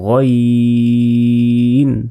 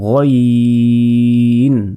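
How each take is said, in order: First: The first vowel sounds like o. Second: The first vowel sounds like o.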